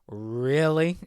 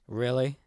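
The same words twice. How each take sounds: First: It is said at a slower pace. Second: It is said at a quicker pace.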